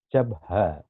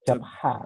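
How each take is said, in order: First: The h is a light breathy sound from the chest. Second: The h is a tight sound from the throat. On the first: The speaker calls it right. "nada suara dari paru-paru" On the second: The speaker calls it wrong. "Bukan di tenggorokan"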